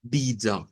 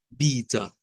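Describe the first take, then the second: First: Vida with the stress on bi and a reduced final a; Portuguese vida. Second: Vida stressed on bi, final a reduced; slow the stressed bi, let the final a fade; Portuguese vida. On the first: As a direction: say vida stressing the first syllable, final a swallowed to a mid vowel. (vida con la a final reducida y el acento en bi) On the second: (vida a la portuguesa, tónica en la primera sílaba) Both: Shown as a demonstration. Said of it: "esta va a sonar a da".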